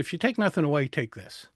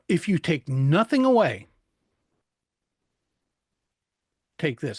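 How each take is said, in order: First: Words are spoken flatly with no emphasis. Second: Key words are hit with strong emphasis. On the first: Nothing signals that it matters. The speaker calls it wrong. "There's no importance to it. There's no emphasis" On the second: This is important; listen to this. The speaker calls it right. "Like when I said before"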